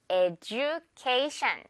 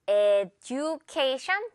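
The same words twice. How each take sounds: First: "education" said eh-joo-KAY-shun, with a j sound, slowly; right j in education. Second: "education" said eh-doo-KAY-shun, with a hard d, slowly; wrong d in education. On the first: Teacher showing students the native "education", j sound. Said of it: "education 이렇게 발음을 한답니다". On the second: Teacher showing students the common mistake, hard d. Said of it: "no, no. 그렇게 발음하지 않아요". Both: Shown as a demonstration.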